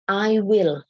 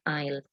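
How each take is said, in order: First: Two full words are said without contraction. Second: The words are contracted into one short syllable.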